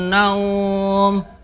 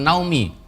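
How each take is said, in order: First: The last syllable is held long with no vowel after. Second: The word ends with a short added vowel. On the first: The speaker calls it right. "Mat lain di dibaca panjang" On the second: The speaker calls it wrong. "Dibacanya bukan naumi"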